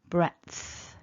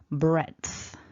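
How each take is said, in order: First: A voiceless T sound comes before the th. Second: A voiced D sound comes before the th. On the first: "a little softer because we're not voicing the T" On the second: "you've got the voiced D sound"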